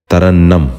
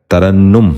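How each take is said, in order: First: ترنم ending in -nnam, tarannam; the wrong way: ترنم as ta-ran-nam; wrong pronunciation. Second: ترنم ending in -nnum, tarannum; the right way: ترنم as ta-ran-num; correct pronunciation. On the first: Teacher demonstrates the common mistake, ترنم as tarannam. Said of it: "یہ غلط تلفظ ہے". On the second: Teacher gives children the correct ترنم, tarannum. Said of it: "اس لفظ کا درست تلفظ ہے". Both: Shown as a demonstration.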